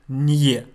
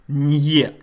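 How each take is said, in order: Both takes have the same delivery.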